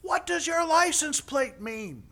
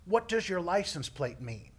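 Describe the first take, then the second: First: High, loud, slow shouted question; imitating a rescuer's drawn-out yell; yelling paramedic. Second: Milder replay of the shouted question; toned-down imitation of a yell; mock question. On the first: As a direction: holler a question from afar. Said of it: "he's still yelling as he comes". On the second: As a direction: repeat it as an absurd query. Repeats question, milder, mocking.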